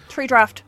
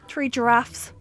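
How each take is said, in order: First: The words are said fast and run together. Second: The words are said slowly and clearly.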